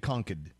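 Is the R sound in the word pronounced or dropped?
dropped. It is said without the R, Massachusetts style.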